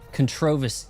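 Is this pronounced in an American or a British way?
British. It is said in a British way.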